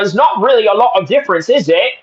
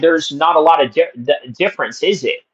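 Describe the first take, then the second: First: It is said in a put-on British accent. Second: It is said in his usual, non-British voice.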